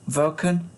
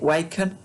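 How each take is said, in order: First: The name begins with a V sound. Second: The name begins with a W sound. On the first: The speaker calls it right. "it is actually pronounced Vulcan, apparently, which which would sound V O K E N" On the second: The speaker calls it wrong. "I was pronouncing it Waken, uh, which sounds like Waco"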